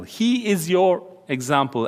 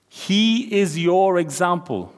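First: Said in the usual way. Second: HE is your example, each word slow and weighted; slow emphasis. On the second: Shown as a demonstration. Preacher to youth, stressing the verse slowly. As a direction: lean hard on He, slowly. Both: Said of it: "Wow, underline that in your Bible".

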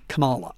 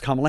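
First: Kamala said kuh-MAH-luh; wrong pronunciation. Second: Kamala said COMMA-luh; correct pronunciation. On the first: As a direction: put the stress of Kamala on the middle syllable, kuh-MAH-luh. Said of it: "not Kamala". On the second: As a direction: stress the first syllable of Kamala, as in "comma". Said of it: "then I know it's". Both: Shown as a demonstration.

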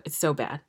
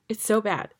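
First: Said in the usual way. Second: Higher, with the weight on "so"; exasperated second saying of "It's so bad", rising on "so"; emphatic repeat. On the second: Real, not acted. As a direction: punch "so" in "It's so bad" hard and high. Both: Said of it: "repeats the verdict twice".

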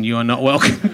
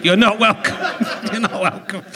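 First: Lower, deadpan mock-stern You are not welcome, with welcome lifting at the end; low, dry pretend rebuke with welcome rising. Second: You're not welcome said through real laughter, leaning on not; giggling version with not stressed; laughing. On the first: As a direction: play the stern doorman as a joke. Mock banishing the banker. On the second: Real, not acted. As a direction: break up while repeating the line. Repeats it, cracking up.

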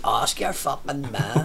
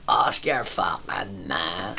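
First: Slow dismissive retort. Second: Slow, soft, dragged-out brush-off; slow dismissive mutter. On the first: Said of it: "so just like". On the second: Lad brushing off the drinker: slow soft dismissive drawl. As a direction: drawl it like he's out of comebacks. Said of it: "And he went". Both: Retold or imitated.

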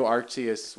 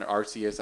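First: Arceus said as AR-tee-us; Arceus with a t sound, ar-TEE-us; Arceus with a T, said slowly; unsure pronunciation. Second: Arceus said as AR-see-us; Arceus with an s sound, ar-SEE-us; Arceus retried with an S; corrected pronunciation. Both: Shown as a demonstration. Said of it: "I don't know how to say the fucking Pokemon's name".

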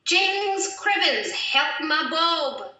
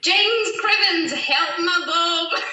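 First: Slow, drawn-out bad Scottish accent; a Scottish phrase said slowly in a bad Scottish accent. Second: Higher, louder, slow bad Scottish accent; the phrase repeated on request in a hammed-up Scottish accent; bad Scottish accent again. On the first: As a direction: ham up a clumsy Scottish accent. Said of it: "the worst Scottish accent I've ever heard". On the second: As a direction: belt it out in an over-the-top Scottish accent. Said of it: "can we hear that one again".

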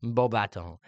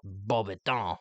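First: Beaubaton said as BO-ba-tun; movie pronunciation. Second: Beaubaton said as bo-ba-TAHN; her own pronunciation. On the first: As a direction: Beaubaton with a short clipped ending. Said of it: "in the movies, they pronounce it". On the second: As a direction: Beaubaton with a drawn-out French ending. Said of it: "I like to pronounce it as". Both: Shown as a demonstration.

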